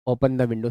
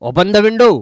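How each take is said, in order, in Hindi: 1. यह बेपरवाह और उदासीन लगता है, जैसे कोई सुझाव। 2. यह सख्त और मांग करने वाला लगता है, जैसे कोई आदेश। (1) "सजेस्ट में, कि ओपन करो मत करो कोई फर्क नहीं" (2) "तो ये ऑर्डर में चला जाएगा"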